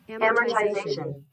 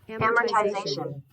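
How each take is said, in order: No difference in how they are said.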